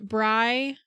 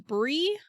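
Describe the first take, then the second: First: The vowel sounds like 'eye', as in 'sky'. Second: The vowel sounds like 'ee', as in 'see'. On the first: "it's pronounced Bry" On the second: "I have also heard it as Bree"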